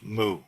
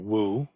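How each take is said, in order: First: The word begins with an m sound. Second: The word begins with a w sound. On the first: "as I've been taught to say it" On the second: "which is closer to the Mandarin pronunciation"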